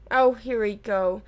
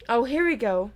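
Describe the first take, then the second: First: A slower, lower, bitter "Oh, here we go"; bitterly. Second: Said in the usual way. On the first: A narrator's reading. Nick dreading the headless hunt, bitterly. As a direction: let it drag out resentfully. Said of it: "said narrowly headless Nick bitterly".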